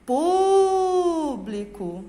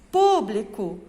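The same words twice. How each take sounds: First: "Público" called with a very long, strong Pú; slow demo call of "Público", held on Pú. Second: Said in the usual way. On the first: Shown as a demonstration. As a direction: stretch the first syllable of "Público" like a call. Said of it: "Qual é a sílaba forte?".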